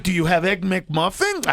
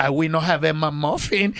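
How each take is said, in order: First: Said in the usual way. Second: Low-pitched mock Puerto Rican accent; thick Puerto Rican accent. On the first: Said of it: "asking her to repeat items". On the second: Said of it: "hear her accent".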